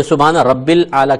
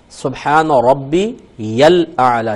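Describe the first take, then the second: First: رب said without the ی, run into الاعلی; سبحان رب الاعلی said the wrong way, slowly; wrong pronunciation. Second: ربی with the ی linked into لام of الاعلی, very slow; slow careful ربی الاعلی, ی joined to لام; correct pronunciation. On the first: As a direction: drop the ی from ربی and slur it. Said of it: "کہہ دیتے ہیں". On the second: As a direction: join ربی's ی to the لام, slowly. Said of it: "یہ کو لام سے ملانا". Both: Shown as a demonstration.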